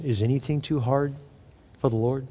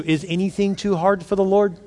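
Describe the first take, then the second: First: "Is anything too hard for the Lord?" dropped much softer; quiet inward asking; soft refrain. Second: Said in the usual way. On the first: Shown as a demonstration.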